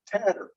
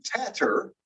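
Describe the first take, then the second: First: TATTER with the middle T flapped like a quick D; alveolar flap. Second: TATTER with both Ts crisp and aspirated; over-careful TATTER, a true T in the middle; full middle T. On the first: Teacher demonstrating the flap, "tatter" with soft tapped middle T. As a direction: tap the tongue once in TATTER. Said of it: "we've got the alveolar flap". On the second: Teacher showing what she's not saying, "tatter" with hard middle T. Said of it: "I'm not really saying tatter". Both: Shown as a demonstration.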